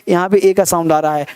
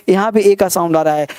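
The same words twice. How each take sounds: The two takes are said the same way.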